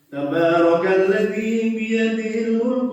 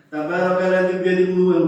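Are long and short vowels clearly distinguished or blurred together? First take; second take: distinguished; blurred. First: Long and short vowels are clearly distinguished. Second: Long and short vowels are blurred together. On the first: The speaker calls it right. "Contoh nih" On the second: The speaker calls it wrong. "kalau terbiasa tidak membenahi dan tergantung pada hafalannya"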